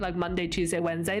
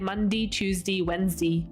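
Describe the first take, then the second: First: It is said in a plain accent. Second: It is said in a broad local Australian accent.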